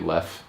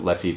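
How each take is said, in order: First: The name ends on the f consonant. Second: The name ends with an added vowel sound. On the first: The speaker calls it right. "but it's actually Leff" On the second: The speaker calls it wrong. "Some people pronounce it Leffy"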